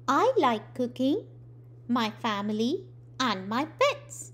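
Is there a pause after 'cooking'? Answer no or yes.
yes. There is a pause after cooking. The speaker likes cooking, family and pets separately. The speaker calls it right. "Cooking के बाद एक comma यानी अल्पविराम"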